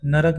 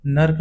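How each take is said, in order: First: Said in the usual way. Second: नर्क as one syllable, nark; नर्क with r running straight into k; half र. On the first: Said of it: "वो शुद्ध है". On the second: Shown as a demonstration. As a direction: drop the vowel after r in नर्क. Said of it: "अशुद्ध है".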